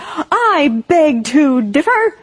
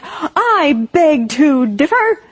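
First: It is shouted in an angry voice. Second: It is shouted in an angry voice.

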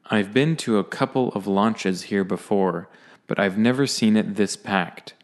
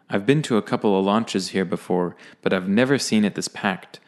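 First: It is read at a slower pace. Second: It is read at a faster pace.

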